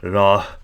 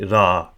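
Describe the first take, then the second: First: The word ends with an audible h sound. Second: The word ends with a change in pitch. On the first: The speaker calls it wrong. "So we wouldn't say ra" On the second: The speaker calls it right. "it means the increase in tone, not uh, a H sound"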